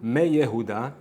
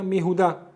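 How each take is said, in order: First: A y sound follows the first syllable. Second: No y sound follows the first syllable. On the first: The speaker calls it wrong. "לא אומרים" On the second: The speaker calls it right. "אלא"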